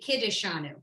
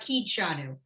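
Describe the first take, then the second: First: Every vowel is pronounced, giving four syllables. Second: The middle vowel is dropped, giving three syllables. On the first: This is the official form. "it is officially Kiddishanu" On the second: This is how it is usually said. "it comes out Kidshanu"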